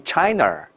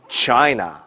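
First: China with a curled retroflex ch; mock wrong China; China starting with a curled tongue. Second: China with a clean ch; China, flat tongue ch; correct China. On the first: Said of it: "不好听了啊". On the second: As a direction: model China, no curl. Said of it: "上海世博会". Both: Shown as a demonstration.

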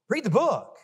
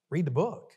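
First: Higher, pressing refrain; emphatic refrain. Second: Said in the usual way. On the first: Acted. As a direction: drive the refrain home, higher. Refrain builds louder, higher.

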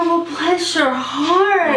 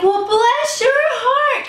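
First: Pitying bless your heart. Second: Much higher and very slow, sugary sincere "bless your heart"; sweet bless your heart. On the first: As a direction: say it like something bad just happened. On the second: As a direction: coo it like happy news for them. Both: Shown as a demonstration. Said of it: "It's all about inflection".

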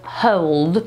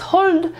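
First: Slow model hold with a rounded glide; correct hold. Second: Higher-pitched counter-example of hold with a plain vowel; wrong hold. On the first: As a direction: hold as 'howld', with a gliding vowel. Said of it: "to jest hold". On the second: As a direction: hold with a short pure 'o', as 'holld'. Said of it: "To nie jest hold". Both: Shown as a demonstration.

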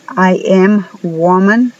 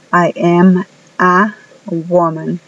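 First: Said in the usual way. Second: I am a woman, slow, with the a clearly sounded; careful English example. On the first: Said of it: "está incorrecto". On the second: Shown as a demonstration. Teacher modeling the correct sentence for students. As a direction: say I am a woman, stressing am. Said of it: "Por ejemplo".

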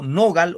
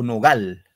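First: NOgal, con la fuerza en NO; acento en la primera sílaba. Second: NoGAL, con la fuerza en GAL; acento en la última. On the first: (nogal, acentuado en la sílaba inicial) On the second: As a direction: di nogal cargando la voz en la sílaba final, gal. (nogal, palabra aguda acentuada al final) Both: Shown as a demonstration. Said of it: "En la no o en la gal".

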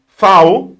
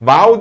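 First: "Fau" with a crisp F, loud; loud correction, "Fau" starting on f; corrected pronunciation. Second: "Vau" with a voiced V, pitched up; wrong pronunciation. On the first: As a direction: hit "Fau" with a clear f. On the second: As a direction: mistaken "Vau", v as in van. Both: Shown as a demonstration. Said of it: "Vau değil".

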